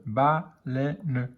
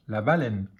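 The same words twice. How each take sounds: First: "baleine" slowly split as ba-lei-ne; syllable by syllable. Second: Said in the usual way. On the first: Shown as a demonstration. Teacher decoding for beginning readers, slow syllable by syllable. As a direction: sound out "baleine" with a gap after each syllable.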